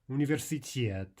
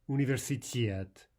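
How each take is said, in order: First: The stress falls on the final syllable. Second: The stress falls on the final syllable.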